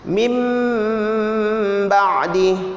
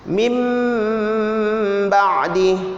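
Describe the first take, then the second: First: The sound before the b is an m. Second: The sound before the b is an m.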